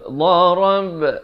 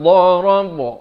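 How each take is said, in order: First: The final b echo is spread, not rounded. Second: The final b echo is rounded like an o. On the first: The speaker calls it right. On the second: The speaker calls it wrong. "Jangan bulatkan jadi darab. Itu tak betul"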